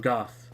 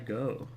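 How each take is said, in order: First: The name ends with a 'th' sound. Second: The name ends on a plain vowel sound. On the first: The speaker calls it right. "Or Goth. It was Goth" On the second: The speaker calls it wrong. "I want to talk to Hawkeye Go"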